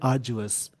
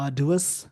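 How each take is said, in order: First: It is said with a 'j' sound. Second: It is said with a clear 'd' sound. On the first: "American English में बोलते हैं" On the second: "British English में बोलते हैं"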